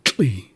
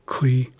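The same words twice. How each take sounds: First: Slow "tli" with a tl onset; tl sound in tli. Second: Slow "Kli" with a hard k; k sound in Kli. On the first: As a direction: contrast "tli", starting on tl. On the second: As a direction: contrast "Kli", starting on k. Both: Shown as a demonstration. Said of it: "a significant difference between them".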